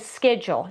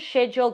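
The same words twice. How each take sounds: First: It is said with an American pronunciation. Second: It is said with a non-American pronunciation. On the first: The speaker calls it right. "Americans call it a a schedule. I, I said that right" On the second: The speaker calls it wrong. "I just said that word wrong for you"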